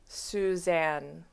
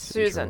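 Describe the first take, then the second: First: The name is said very slowly and drawn out. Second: The name is said at a normal pace.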